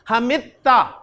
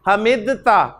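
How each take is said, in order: First: The d merges into a doubled t sound. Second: A separate d sound is heard before the t. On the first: "ता को दाल की जगह पर पढ़ दिया जाता है" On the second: "ऐसे लफ्ज था हमिद ता"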